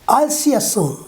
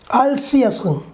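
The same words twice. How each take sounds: No difference in how they are said.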